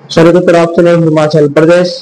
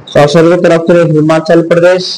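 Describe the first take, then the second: Both takes have the same delivery.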